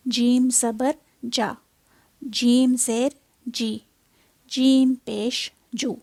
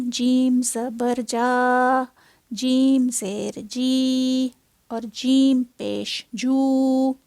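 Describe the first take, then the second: First: जा जी जू each held one short beat; correct short vowels. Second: जा, जी, जू dragged out long as madd; wrongly stretched vowels. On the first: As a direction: say जीम ज़बर जा with a short clean vowel. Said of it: "मैंने उसको मद बना दिया है". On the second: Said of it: "जो कि गलती है". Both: Shown as a demonstration.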